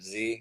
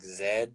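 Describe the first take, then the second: First: The letter is said the American way. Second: The letter is said the South African way. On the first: "instead of Z" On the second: "one guy was saying like Z"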